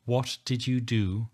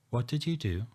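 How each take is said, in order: First: "what" leaned on, words slowed and defiant; defiant, slower. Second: Said in the usual way. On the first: Acted. Narrator demands again what Rachel did, slower and defiant. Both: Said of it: "I repeat louder and more defiant".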